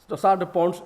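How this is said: The term is pronounced with English sounds. "is the uh, English pronunciation"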